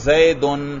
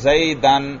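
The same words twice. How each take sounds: First: The word ends in -un. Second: The word ends in -an. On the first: The word is in the nominative case. "کبھی آپ پیش پڑھ رہے ہیں" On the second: The word is in the accusative case. "کبھی زبر پڑھ رہے ہیں"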